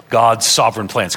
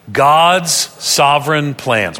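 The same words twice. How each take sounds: First: Said in the usual way. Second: Slow, evenly spaced words for group reading; read aloud together. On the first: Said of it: "Could you read that out loud". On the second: Shown as a demonstration. Preacher leading the congregation in reading aloud, slow and deliberate. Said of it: "read that out loud with me together".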